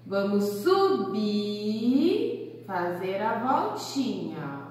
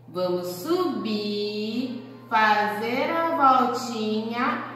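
First: Slowed, singsong tracing words; slow demonstration. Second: Stretched, very slow tracing words; slow demonstration. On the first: Teacher guides kids through the stroke, slowed. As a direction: stretch it gently as you draw. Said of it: "Olha lá o ponto de partida". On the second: Teacher shows the stroke to kids, very slow. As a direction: draw each word out as you trace. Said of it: "o ponto de partida". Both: Shown as a demonstration.

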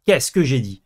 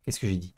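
First: Louder gloating qu'est-ce que j'ai dit; loud triumphant repeat. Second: Muttered. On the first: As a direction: crow it out, told you so. (répété fort, triomphant) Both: Real, not acted.

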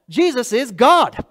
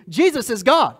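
First: Slow and louder, each word weighed; emphatic declaration. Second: Said in the usual way. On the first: Acted. Preacher to congregation, slow, louder emphatic declaration. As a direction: plant "Jesus is God." firmly and slowly. Preacher stating the core claim.

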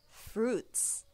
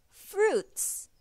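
First: Said in the usual way. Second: High bright repeat of the word Fruits; high drill. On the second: Shown as a demonstration. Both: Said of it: "Let's say that again".

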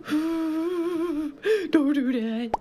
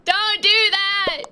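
First: Very slow, soft crying plea; whimpering mock plea. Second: Higher, slow hammed-up plea; mock pleading cry. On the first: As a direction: drag it out like a whimper. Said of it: "I'm like". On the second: Repeats plea louder.

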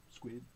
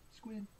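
First: SQUID on a short low note. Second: SQUID on a short high note. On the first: Reader prompts children to say squid, low note. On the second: Reader prompts children to say squid, high note. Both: Pretend.

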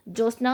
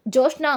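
First: Said in the usual way. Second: The name Joshna called out higher and louder; loud shout. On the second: A narrator's reading. Deepa shouting for Jyotsna at her door, loud yell. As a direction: yell Joshna across the house. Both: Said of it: "గట్టి గట్టిగా అరుస్తూ ఉంటుంది".

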